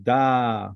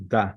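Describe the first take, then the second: First: Da held long as "daaah"; Da with a sustained open "ah"; long vowel. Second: Da said short, "dah"; Da with a brief open "ah"; short vowel. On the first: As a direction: draw out the vowel of Da. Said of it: "Gadol means long". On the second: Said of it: "A, the short one". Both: Shown as a demonstration.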